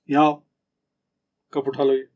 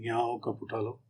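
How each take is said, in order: First: Put-on a bit louder, firmer call to a child. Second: Soft, tender request, much softer; gentle to wife. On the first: Parent firmly calling a child who left the cup, firm. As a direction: call the kid over firmly. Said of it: "और बच्चा है कोई". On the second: Husband gently asking his wife to pick up the cup. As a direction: ask gently, not in anger. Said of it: "Mrs है आपकी, तो आप गुस्से में तो नहीं कहेंगे". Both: Shown as a demonstration.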